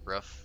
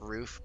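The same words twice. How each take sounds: First: The word sounds like a dog's bark. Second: The word sounds ordinary, not like a bark.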